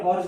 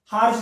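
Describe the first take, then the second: First: हॉर्स said as "hors", open o with a plain s ending; हॉर्स spoken like the word horse; Hindustani pronunciation. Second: हार्श spoken the English way, ending in sh; proper English pronunciation. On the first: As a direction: say हॉर्स the everyday Indian way, ending in s. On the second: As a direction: say हार्श with the English sh sound at the end. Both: Shown as a demonstration. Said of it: "pronunciation देख लीजिए".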